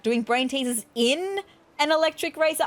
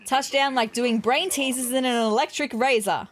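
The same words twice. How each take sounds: First: Mildly baffled question, pitched higher; puzzled echo. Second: Said in the usual way. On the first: Acted. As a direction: query the odd phrase in disbelief. Puzzled echo of the odd line.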